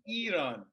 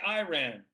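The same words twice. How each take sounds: First: It is said with a Turkish pronunciation. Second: It is said with a Texan accent.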